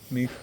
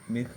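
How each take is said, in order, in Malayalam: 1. ഈ വാക്ക് മൃദുവായ h പോലുള്ള ശബ്ദത്തിൽ അവസാനിക്കുന്നു. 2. ഈ വാക്ക് മൃദുവായ h പോലുള്ള ശബ്ദത്തിൽ അവസാനിക്കുന്നു.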